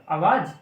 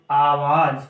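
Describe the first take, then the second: First: Said in the usual way. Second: आवाज said slower and weighted as the correct form; corrective emphasis. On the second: Shown as a demonstration. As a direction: firmly correct the pupil with आवाज. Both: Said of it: "नहीं, आवाज".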